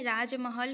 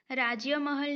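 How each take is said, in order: First: राजमहल as "raaj-mahal"; राजमहल with no y-glide; correct form without y. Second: राज्य महल as "raajya mahal"; राज्य महल with a y-glide; wrong added y. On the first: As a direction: go straight from j to m in राजमहल. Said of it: "होता है". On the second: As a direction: put a "ya" after j in राज्य महल. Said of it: "नहीं होता है". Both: Shown as a demonstration.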